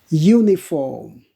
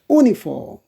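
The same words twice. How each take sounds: First: The word begins with a 'y' sound. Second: The word begins with a plain vowel sound. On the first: The speaker calls it right. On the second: The speaker calls it wrong.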